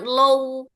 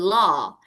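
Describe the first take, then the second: First: The vowel glides toward a w sound. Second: The vowel stays open with no glide. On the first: The speaker calls it wrong. "jangan low w ya Ibu" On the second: The speaker calls it right. "law kayak oh kebuka gitu"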